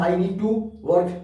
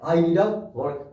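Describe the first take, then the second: First: 'Need to' is said fully, with a clear 'to'. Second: 'Need to' is reduced to a quick 'needa'. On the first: "अगर आप आप बोलते हैं I नीड टू work" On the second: "I नीड टू की जगह वो लोग I नीड अ का इस्तेमाल करते हैं"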